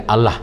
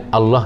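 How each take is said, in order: First: "Allah" with an open last vowel, "al-lah"; Western pronunciation. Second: "Allah" with a rounded last vowel, "al-loh"; Arabic pronunciation. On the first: Teacher contrasting accents for the class, "Allah" said Western-style as "al-lah". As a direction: say "Allah" with a plain AH ending. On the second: Teacher contrasting accents for the class, "Allah" said Arabic-style as "al-loh". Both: Shown as a demonstration. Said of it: "Allah logat putih tu".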